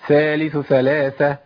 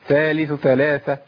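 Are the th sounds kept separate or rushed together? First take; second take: rushed; rushed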